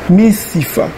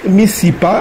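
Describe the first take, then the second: First: The last consonant is an f sound. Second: The last consonant is a p sound. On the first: The speaker calls it right. "on dit missifa" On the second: The speaker calls it wrong. "au lieu de dire miss, missipa"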